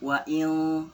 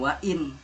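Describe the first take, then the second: First: The n is blurred into a hidden nasal. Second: The n is pronounced clearly and fully. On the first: The speaker calls it right. "jadi dibacanya samar" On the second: The speaker calls it wrong. "bukan wa'in"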